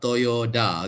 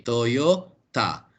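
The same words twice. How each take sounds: First: Toyota said with a D, "toyoda"; "Toyota" mispronounced as to-yo-DA; rejected pronunciation. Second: Toyota slowly, with T in a separate "ta"; "Toyota" slow, clear T, falling; corrected pronunciation. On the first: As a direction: say "Toyota" ending in "da". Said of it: "not Toyota". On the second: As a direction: say "Toyota" as toyo... TA. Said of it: "not Toyota. Okay, Toyota". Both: Shown as a demonstration.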